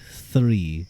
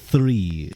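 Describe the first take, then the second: First: It begins with an exaggerated TH sound. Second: It begins with an exaggerated TH sound.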